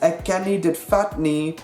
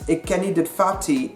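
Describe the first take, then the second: First: The final negative is a full 'nie'. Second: The final negative is reduced to 'e'. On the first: "the second nie in negative sentences becomes e" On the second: "the second nie in negative sentences becomes e"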